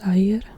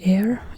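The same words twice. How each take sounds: First: It is said with Indonesian sounds, unlike English. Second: It sounds like the English word air. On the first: "but air" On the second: "written like air in English"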